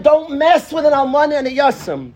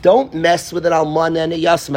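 First: "Don't mess" higher and louder, proclaimed; fiery preacher reading; declaimed verse. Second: Said in the usual way. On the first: Shown as a demonstration. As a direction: thunder the warning. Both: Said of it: "One more time".

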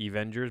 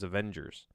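First: Avengers said as ee-VEN-jers, with a long ee start; wrong Avengers. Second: Avengers said as uh-VEN-jers, with a soft uh start; right Avengers. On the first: Vlogger mispronouncing Avengers as ee-VEN-jers on purpose. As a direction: say Avengers as ee-vengers, the way it sounds in your head. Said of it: "That word sounds funny to me". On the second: Vlogger correcting Avengers to uh-VEN-jers. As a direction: correct yourself and say Avengers as uh-vengers. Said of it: "so I just wanna say Avengers, but it's". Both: Shown as a demonstration.

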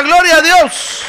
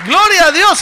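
First: Loud, high and slow; call to repeat. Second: Loud, high cry; shouted praise. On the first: Shown as a demonstration. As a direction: lead the congregation in the response. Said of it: "A ver, diga". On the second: Real, not acted. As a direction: cry out to God. Preacher's own shout.

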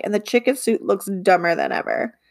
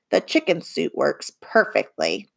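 First: Said in the usual way. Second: Low conspiratorial whisper; hushed whisper. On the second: Acted. Bob whispering to Livy that the chicken suit works. Bob insisting on his disguise.

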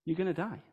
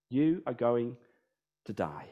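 First: Said in the usual way. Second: Each word of You are going to die said separately, falling to soft on die; You are going to die said word by word, sinking low and quiet on die; slow emphatic restatement. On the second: Shown as a demonstration.

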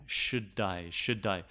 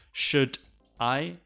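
First: "should die" as "shu-dai"; falling, blended "shu-dai"; linked D. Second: "should I" as two separate words; D kept at the end of "should"; unlinked wrong form. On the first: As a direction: run "should I" together, D starting "I". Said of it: "we say sh". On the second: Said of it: "No, we say". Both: Shown as a demonstration.

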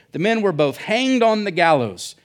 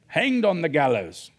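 First: Said in the usual way. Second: Hammed-up Australian pirate accent. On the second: Preacher replays the gallows verse for laughs, mock pirate accent. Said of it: "all pirates speak with Australian accents".

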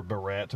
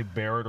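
First: Barrett said buh-RET, like the hair clip; barrette pronunciation. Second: Barrett said BARE-it, stress up front; first-syllable stress. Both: Shown as a demonstration. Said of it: "I'm gonna say Barrett or Barrett".

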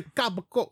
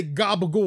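First: "gabagool" said softer, clipped, in an Italian American accent. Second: "gabagool" with a hard g, ga said firmly. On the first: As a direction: drop the last vowel of "gabagool" the way Italian Americans do. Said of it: "But they would say". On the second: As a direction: start "gabagool" on a hard g sound. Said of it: "with a hard ga". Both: Shown as a demonstration.

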